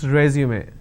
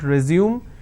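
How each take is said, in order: First: The word ends with an extra 'may' syllable. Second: The word ends in a plain 'zoom' sound. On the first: The speaker calls it right. "it's resume" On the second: The speaker calls it wrong. "It's not resume"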